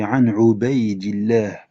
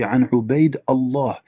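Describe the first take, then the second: First: Allah is linked into the word before. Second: Allah is said separately, with no linking. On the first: The speaker calls it right. "C'est An Ubaidillah" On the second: The speaker calls it wrong. "Il a dit An Ubaid Allah. ... Il sait pas faire une liaison"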